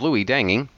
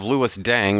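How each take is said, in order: First: The surname is said as two syllables. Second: The surname is said as one syllable. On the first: The speaker calls it right. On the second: The speaker calls it wrong.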